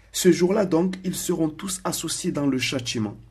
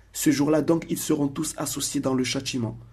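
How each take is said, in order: The two takes are said the same way.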